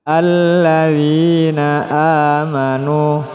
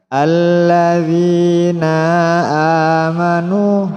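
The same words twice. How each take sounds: First: The final vowel is short and flows straight on. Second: The final vowel of 'alladzina' is drawn out long. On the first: The speaker calls it right. "tapi dilangsungkan" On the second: The speaker calls it wrong. "jangan dipanjangkan... tidak boleh seperti itu"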